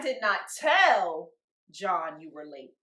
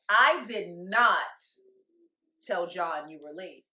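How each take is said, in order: First: The stress is on the word tell. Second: The stress is on the word not.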